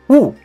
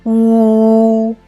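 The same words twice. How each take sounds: First: The pitch falls sharply from high to low. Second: The pitch stays high and level. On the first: "The last tone is U" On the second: "The first tone of U is U"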